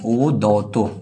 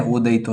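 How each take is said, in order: First: ओदौतो with 'au' in the middle; the corrected ओदौतो, carefully sounded out; corrected reading. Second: ओदयितो with an 'ayi' glide in the middle; the misread ओदयितो, quoted in passing; mistaken reading. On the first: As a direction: say ओदौतो as o-dau-to. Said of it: "ठीक है, ओदयितो नहीं". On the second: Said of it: "ओदयितो नहीं". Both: Shown as a demonstration.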